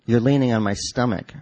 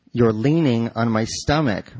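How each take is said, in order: First: Said in the usual way. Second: Slow, drawn-out stress on "leaning"; pointed repeat. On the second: A narrator's reading. Wife repeats herself to husband squashing her, pointed, stress on "leaning". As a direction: repeat it slowly, leaning on the word "leaning".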